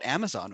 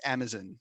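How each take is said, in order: First: The last syllable has a full, clear O vowel. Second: The last syllable has a reduced, barely heard vowel. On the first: This is the home-country pronunciation. "I don't pronounce it Amazon" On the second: This is how it's said in the UK. "it's almost like the O at the end doesn't exist"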